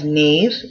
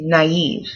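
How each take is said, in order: First: It is said as one syllable, like 'nave'. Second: It is said as two syllables, 'na-eve'. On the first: The speaker calls it wrong. "you don't pronounce it as knave" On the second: The speaker calls it right. "but you say naive"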